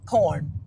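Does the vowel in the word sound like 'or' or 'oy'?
or. The vowel sounds like 'or', as in corn. "that's another thing we do here in Saint Louis"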